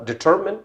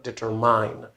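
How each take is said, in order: First: The last syllable sounds like 'min'. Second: The last syllable rhymes with 'mine'. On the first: The speaker calls it right. "the same thing uh, about uh, determine" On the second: The speaker calls it wrong. "it's not determine"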